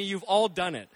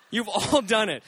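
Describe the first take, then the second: First: Said in the usual way. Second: Laughing. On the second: Real, not acted. Pastor laughing as he teases the congregation. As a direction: laugh through the repeat.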